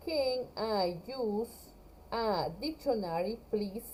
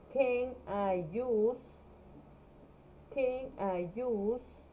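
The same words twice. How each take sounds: First: Slow, questioning rise on the end; slow model question. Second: Very slow, careful phrasing; slow model phrase. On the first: Teacher models the whole question slowly for her class. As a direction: read the full question slowly. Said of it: "¿Puedo usar un diccionario?". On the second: Teacher assembles the question slowly for her class. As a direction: build the phrase slowly for students. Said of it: "mi verbo use". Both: Shown as a demonstration.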